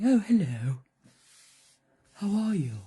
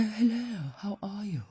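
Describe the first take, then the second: First: Loud, well-spoken talking donkey; loud, plummy donkey greeting; posh donkey voice. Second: A hint of a well-spoken donkey; lightly plummy donkey greeting; lightly voiced posh donkey saying hello. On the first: Acted. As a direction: give the donkey a posh hello. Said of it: "that's how they talk". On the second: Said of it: "They're very well spoken".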